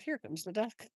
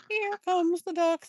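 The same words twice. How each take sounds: First: Said in the usual way. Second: Higher, louder and drawn out; loud, slow, high-pitched heralding; excited announcement. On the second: Real, not acted. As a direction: announce it with real excitement, stretching the words. Announces the duck's arrival to viewers.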